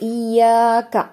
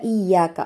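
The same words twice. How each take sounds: First: The long vowel is stretched beyond two beats. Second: The long vowel is held for two beats only. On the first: The speaker calls it wrong. "രണ്ടിലധികമായിട്ട് ഇയ്യാക അങ്ങനെ നീട്ടാൻ പാടില്ല" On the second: The speaker calls it right. "ഇയ്യാക അത്രയേ ഉള്ളൂ കേട്ടോ"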